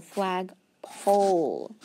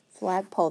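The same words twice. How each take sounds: First: "flagpole" stretched slowly with a long O; slow blended word. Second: Said in the usual way. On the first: Shown as a demonstration. Teacher blending flagpole slowly to show the long O. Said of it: "make it say the long O".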